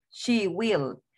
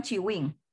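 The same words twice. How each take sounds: First: "She will" with "sh" and final "l"; correct "will". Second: "she win" as "chee win", final "n"; mispronounced "will". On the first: Teacher gives the right way, "She will" ending in "l". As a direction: land "will" on "l", not "n". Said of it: "No digan "she win". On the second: Teacher warns students off it, "she win" as "chee win". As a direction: start "she" with "ch", close "win" on "n". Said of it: "No digan". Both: Shown as a demonstration.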